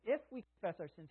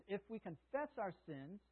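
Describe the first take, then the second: First: "If" lifted and leaned on at the start; stress on if. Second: Said in the usual way. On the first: Shown as a demonstration. Preacher rereads the verse, stressing "If". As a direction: land on the word "If" before the rest. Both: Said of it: "there's the if".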